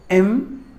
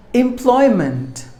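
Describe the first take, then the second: First: "Employment" broken into em, ploy, ment; long pauses between the syllables of "Employment". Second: Said in the usual way. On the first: Shown as a demonstration. Teacher breaking down the word for learners, "Employment" syllable by syllable. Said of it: "There are three syllables". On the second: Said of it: "Word number five".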